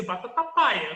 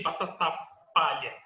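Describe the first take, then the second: First: "batata paia" with a y in place of lh; pronúncia do irmão. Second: "batata palha" with "palha" set apart after a pause; pronúncia com lh. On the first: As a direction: quote the brother insisting on "paia". ("batata paia", sem o "lh") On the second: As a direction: retell it with a clear lh in "palha". ("batata palha", pausa antes de "palha") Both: Retold or imitated. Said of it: "Aí ele falou pra mim".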